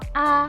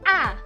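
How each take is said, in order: First: It is said lightly and softly, unstressed. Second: The pitch falls sharply and abruptly. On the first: "nada netral itu bacanya ringan dan pelan" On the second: "nada keempat itu bacanya turun menyentak"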